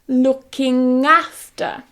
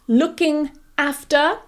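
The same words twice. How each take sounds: First: The ng sound runs into after. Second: The two words are said separately. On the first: "you say looking after" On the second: "instead of saying looking after"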